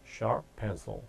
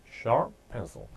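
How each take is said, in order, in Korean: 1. "sharp"의 p는 잠깐 멈춘 상태로 있습니다. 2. "sharp"의 p는 잠깐 멈춘 상태로 있습니다.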